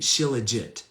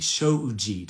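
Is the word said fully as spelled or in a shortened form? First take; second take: as spelled; shortened. First: The word is said fully, sounding every syllable. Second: The word is said shorter, with syllables merged. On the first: The speaker calls it wrong. "if you're just phonetically saying it" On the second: The speaker calls it right. "is how you pronounce it"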